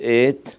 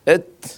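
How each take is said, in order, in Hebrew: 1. התנועה ארוכה. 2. התנועה קצרה. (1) "בסרי" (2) "בסגון"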